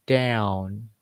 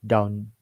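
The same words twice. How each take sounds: First: "Down" drawn out with a glide; American gliding tone. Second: "Down" short and level; level, un-American tone. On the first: Teacher shows how Americans say it, gliding tone. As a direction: stretch the vowel of "Down", bending the tone. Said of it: "They say". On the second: Teacher shows what Americans don't say, level tone. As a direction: say "Down" without a glide. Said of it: "they also don't say". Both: Shown as a demonstration.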